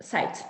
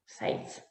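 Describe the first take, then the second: First: Said in the usual way. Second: Softer, voiceless whisper of the word Sight. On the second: Shown as a demonstration. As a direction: breathe the word Sight out without voice. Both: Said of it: "Botoke brother sighed".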